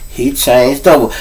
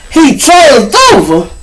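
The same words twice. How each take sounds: First: Said in the usual way. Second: "He changed over" high, loud and stretched out; shocked disbelief. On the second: Retold or imitated. Echoing news of a friend's death, loud shocked disbelief.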